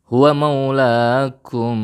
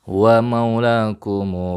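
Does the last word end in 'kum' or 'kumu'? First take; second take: kum; kumu. First: The word ends in a closed 'kum'. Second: The word ends with an added vowel 'kumu'.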